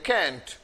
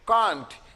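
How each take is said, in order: First: The vowel is a front 'a' as in cat. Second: The vowel is a long open 'ah'. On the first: "या फिर हम कैंट भी बोल सकते हैं" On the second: "can not को short में कांट"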